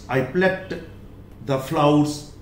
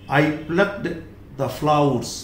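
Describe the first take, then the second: The two takes are said the same way.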